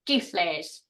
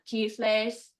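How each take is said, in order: First: The tone falls during the word. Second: The tone stays high throughout the word. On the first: I know; I have already learned it. "but with a falling tone means I know" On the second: I am learning. "That tone is high the whole time"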